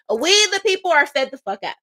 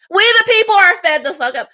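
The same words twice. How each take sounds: First: Said in the usual way. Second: Louder repeat. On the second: Real, not acted. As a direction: punch it louder and higher.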